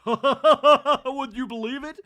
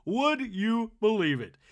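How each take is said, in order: First: Loud, high, laughing out the line. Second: Said in the usual way. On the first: Real, not acted. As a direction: crack up mid question. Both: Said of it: "repeated line".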